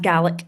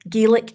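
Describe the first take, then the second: First: It is pronounced the Scottish way. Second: It is pronounced the Irish way. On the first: It refers to the Scottish language. "Gaelic is the Scottish" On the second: It refers to the Irish language. "Gaelic is the Irish"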